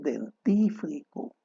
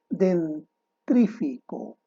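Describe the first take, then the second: First: The R sound comes right after the F. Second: The R sound comes right after the T. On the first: The speaker calls it right. "lo correcto es" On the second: The speaker calls it wrong. "palabras mal pronunciadas"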